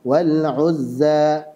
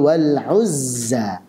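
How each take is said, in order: First: The z is weak and sounds like th. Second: The z is a sharp whistling sound. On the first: The speaker calls it wrong. "Shafirnya lemah sehingga menyerupai suara huruf dzal" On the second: The speaker calls it right. "Yang betul"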